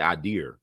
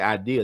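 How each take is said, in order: First: It is said in a Northeastern American accent. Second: It is said in a general American accent. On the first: "they say idea" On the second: "They they don't say idea"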